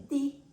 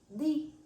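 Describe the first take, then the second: The two takes are said the same way.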